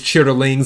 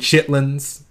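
First: The word is said in its full form. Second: The word is said in the Southern form.

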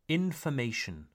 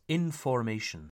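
First: The R sound is not heard. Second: The R sound is clearly pronounced. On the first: The speaker calls it right. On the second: The speaker calls it wrong.

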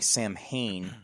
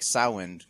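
First: The word is said with an audible M sound. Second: The word is said with no M, an ow sound. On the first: The speaker calls it wrong. "what looks like Samhain" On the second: The speaker calls it right. "There's no M pronouncing. They're pronouncing it as like Samhain, kind of like the ow and cow"

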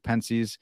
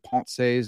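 First: The word is said with an English pronunciation. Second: The word is said with a French pronunciation. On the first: The speaker avoids pretending to speak French. "I pronounce my podcast [name]'s Pensies. I do it intentionally" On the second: The speaker tries to honor the original language. "maybe I should say pensées and try to pronounce it"

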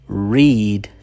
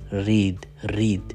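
First: The R is a plain English R. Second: The R is a rolled, trilled R. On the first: "instead of saying read" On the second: "the R is a rolling R, like rrr"

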